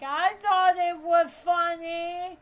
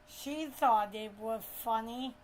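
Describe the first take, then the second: First: High, loud cousin voice; pitched-up, loud mimicry of a cousin; imitating cousin. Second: Said in the usual way. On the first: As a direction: pipe up loudly as the cousin.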